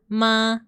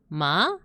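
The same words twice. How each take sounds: First: The pitch stays level and flat. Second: The pitch rises upward. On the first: "this one is like just a horizontal line" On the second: "a line going up, so your tone goes up"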